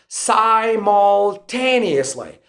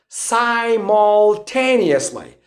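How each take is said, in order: No difference in how they are said.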